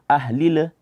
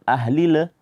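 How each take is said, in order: Both takes have the same delivery.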